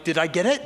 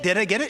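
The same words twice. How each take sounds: First: Said in the usual way. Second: Higher, pleading repeat; more eager question. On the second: Retold or imitated. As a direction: push the repeat up, begging for a yes. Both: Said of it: "I'm like".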